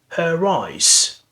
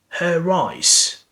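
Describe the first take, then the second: First: An r sound links the two words. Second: An r sound links the two words.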